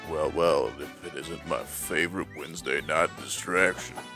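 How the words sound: It is said in a put-on sexy voice.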